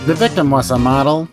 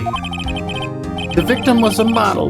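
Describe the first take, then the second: First: It is said in a put-on nerdy voice. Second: It is said in the speaker's ordinary voice. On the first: The speaker calls it right. "do the nerd voice" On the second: The speaker calls it wrong. "I keep forgetting to do the nerd voice"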